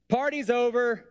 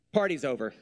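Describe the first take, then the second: First: 'Party's over' pitched up high as a dramatic call; shout-sing 'Party's over' high to the room, hammed up; high, theatrical 'Party's over'; high mock announcement. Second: Said in the usual way. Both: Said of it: "he just said".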